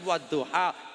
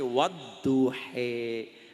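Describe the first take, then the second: First: The word ends with an open 'ah' vowel. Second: The word ends with an 'eh' vowel. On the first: This is the form people are told to say. "Kon ngucap wadduha" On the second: This is how it comes out in a regional reading. "ora bisa metune wadduhe"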